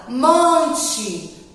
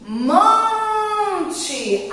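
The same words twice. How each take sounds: First: Said in the usual way. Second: "Monte" with a long, high MON; drawn-out stressed syllable. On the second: Shown as a demonstration. Teacher showing children where she lingers, drawn out. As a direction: hold the first syllable of "Monte": mooonte. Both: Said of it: "Aonde a tia [name] demorou mais?".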